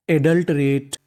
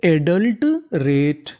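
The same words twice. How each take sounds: First: Said in the usual way. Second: Very slowly sound out adult रेट; slow demo reading. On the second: Shown as a demonstration. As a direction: stretch adult रेट out, each syllable clear. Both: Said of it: "तो meaning बनी हमारी".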